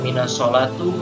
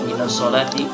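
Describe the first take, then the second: First: The last word ends with an u vowel. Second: The last word ends with an i vowel. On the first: The speaker calls it wrong. "Kenapa tidak boleh dibaca" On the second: The speaker calls it right. "Makanya dibaca minas sholati"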